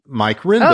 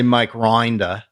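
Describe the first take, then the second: First: The surname's vowel is short and ordinary. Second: The surname's vowel is stretched into a long 'oy'. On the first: This is how the name is actually said. The speaker calls it right. "because that's my name" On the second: This is a mocking take on the accent. The speaker calls it wrong. "they don't say Mike Rinder"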